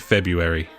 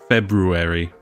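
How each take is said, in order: First: The first R sound is left out. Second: The first R sound is clearly pronounced. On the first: "They just say February. Just chuck a U after it" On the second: "the correct way of saying it is actually February ... with the R"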